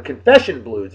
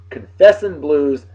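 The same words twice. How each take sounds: First: Said in the usual way. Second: Slow misread title [name], dropped g; wrong title, slow. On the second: Shown as a demonstration. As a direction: draw out "Confessin'" with a clipped n ending before catching it. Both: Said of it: "excuse me".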